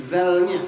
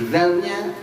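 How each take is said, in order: Both takes have the same delivery.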